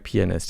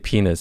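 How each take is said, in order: First: The middle 'a' vowel is clearly pronounced. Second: The middle 'a' vowel is left out. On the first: The speaker calls it right. "did I say it right?" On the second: The speaker calls it wrong. "you forget to pronounce the the A in the middle"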